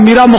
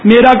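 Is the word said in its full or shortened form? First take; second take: shortened; full. First: The word is said in a shortened form. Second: The word is said in its full form. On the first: "مخفف" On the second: "میرا کا"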